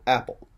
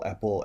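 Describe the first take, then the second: First: The stress is on the first syllable. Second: The stress is on the second syllable. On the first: The speaker calls it right. "we're going to get that first syllable of the two syllable noun with accent" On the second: The speaker calls it wrong. "where they'll accent the second syllable"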